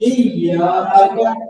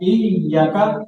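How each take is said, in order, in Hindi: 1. बीच का स्वर लंबा बोला जाता है। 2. बीच का स्वर छोटा बोला जाता है। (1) "असल में तो या को लंबा करना ना यहाँ" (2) "या को लंबा ना करें"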